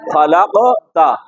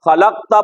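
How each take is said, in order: First: The qaf bounces back with a slight echo. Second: The qaf is closed flat without an echo. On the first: The speaker calls it right. "आवाज काफ में मखरज को लगकर वापस आए" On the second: The speaker calls it wrong. "खलकता पढ़ना गलत है"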